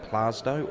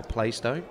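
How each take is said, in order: First: Plaistow said with a broad AH, "PLAH-stow"; local pronunciation. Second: Plaistow said with a long AY, "PLAY-stow"; spelling pronunciation. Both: Shown as a demonstration. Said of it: "depending where you're from".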